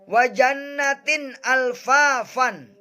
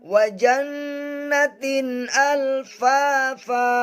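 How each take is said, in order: First: The last word ends with an 'n' sound. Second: The last word ends in a long vowel. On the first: The reading continues without stopping. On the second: The reader stops at this point.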